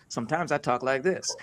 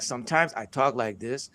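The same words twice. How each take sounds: First: Lightly American-accented English. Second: Lightly Nigerian-accented English. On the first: Speaker shows an audience the other way of talking, American accent. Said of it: "like this with an American accent". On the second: Speaker shows an audience one way of talking, Nigerian accent. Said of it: "sometimes he says things like this with accent". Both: Shown as a demonstration.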